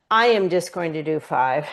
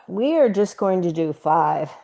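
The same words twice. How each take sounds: First: "I" pushed and rising to correct it to yourself; a self-correcting stress on "I". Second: We ARE, with "are" leaned on slightly; mild emphasis on "are" in the group plan; stress on are. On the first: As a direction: hit the word "I", rising a bit. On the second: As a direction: press the word "are" a little. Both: Real, not acted.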